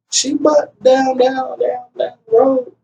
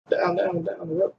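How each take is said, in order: First: Put-on high, slow little-boy voice, lightly done; young son. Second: Muttered softer echo of the son's words; soft repeat. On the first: Father voicing his small son giving directions, lightly childlike. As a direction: imitate the child spelling it out slowly. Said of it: "he was like". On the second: Retold or imitated. Father echoing his son's words to himself, softly. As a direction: repeat it under your breath, dawning. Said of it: "repeats son's words".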